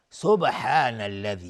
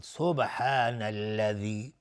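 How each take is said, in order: First: سبحان said loud with an echoing qalqala on the ب; bouncing qalqala. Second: سبحان drawn out, the ب bounced with qalqala; slow qalqala demo. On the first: (قلقلهٔ روشن روی ب در سبحان) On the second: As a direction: repeat سبحان slowly with the ب echoing. (تکرار آرام سبحان با قلقلهٔ ب) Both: Shown as a demonstration.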